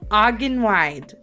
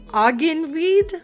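First: The last syllable sounds like English 'wide'. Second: The last syllable does not sound like 'wide'. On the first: The speaker calls it right. "It's a bit more like wide in English" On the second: The speaker calls it wrong. "did I pronounce it okay? Probably not"

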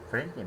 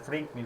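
First: The name is said with an English accent. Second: The name is said with a Turkish accent. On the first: "ama İngilizce'de ne? Franklin mi?" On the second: "Türkçe'de Franklin"

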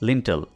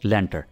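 First: It is said like 'lintel', ending in -tel. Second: It is said like 'lenter', ending in -ter. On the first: The speaker calls it right. "ये सही word है" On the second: The speaker calls it wrong. "कुछ इस तरह से लेंटर, जो कि बिल्कुल गलत है।"

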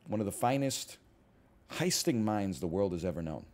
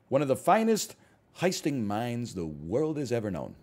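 First: It is said in a weaker character voice. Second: It is said in a stronger character voice. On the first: The speaker calls it wrong. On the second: The speaker calls it right.

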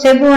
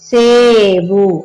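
First: The first vowel is short. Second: The first vowel is long. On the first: The speaker calls it wrong. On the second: The speaker calls it right.

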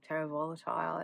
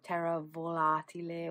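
First: The name is pronounced in an English way. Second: The name is pronounced in a non-English way.

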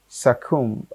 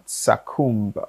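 First: The b is silent at the end. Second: The b is sounded at the end. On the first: The speaker calls it right. "B is automatically silenced" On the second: The speaker calls it wrong. "not succumb"

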